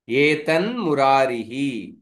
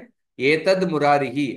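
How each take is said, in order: First: The first word ends in a nasal n sound. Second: The first word ends in a plain d sound. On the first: "दकार को अनुनासिक आदेश मतलब उस वर्ग के पंचम वर्ण आदेश होगा" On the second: "दूसरे पक्ष में एतद मुरारिही ऐसा ही होगा"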